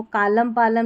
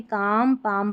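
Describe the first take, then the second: First: Two syllables each in कालम पालम; wrong pronunciation. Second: Silent L in काम पाम; one long vowel each in काम पाम; correct pronunciation. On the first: Teacher showing the error, कालम पालम with L pronounced. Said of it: "कालम पालम नहीं". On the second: Teacher showing the correction, काम पाम without L. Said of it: "काम पाम पढ़ेंगे". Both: Shown as a demonstration.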